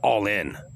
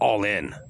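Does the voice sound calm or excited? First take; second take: excited; excited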